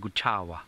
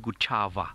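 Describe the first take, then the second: First: The middle consonant is a soft W-like sound. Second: The middle consonant is a full V sound. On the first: The speaker calls it right. "you'd say Guchawa" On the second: The speaker calls it wrong. "you wouldn't say Guchava if you were speaking Shangaan"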